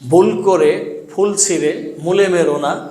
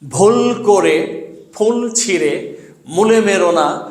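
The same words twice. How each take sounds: First: Sounds are pronounced loosely, like everyday speech. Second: Each sound is articulated carefully and distinctly. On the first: The speaker calls it wrong. "এটা শুদ্ধ উচ্চারণ না" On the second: The speaker calls it right. "শুদ্ধ উচ্চারণে পড়ব"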